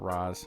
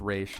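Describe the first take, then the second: First: The name ends with a 'z' sound. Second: The name ends with an 'sh' sound. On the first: The speaker calls it wrong. "not Raz" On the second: The speaker calls it right. "It's pronounced Raish"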